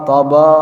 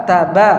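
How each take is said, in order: First: "toba" said with rounded o vowels, the wrong way. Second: "taba" with open a vowels; "taba" said with both a sounds open and clear. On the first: ("toba" dengan bunyi o, salah) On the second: ("taba" dibaca terbuka) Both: Shown as a demonstration. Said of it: "bukan toba".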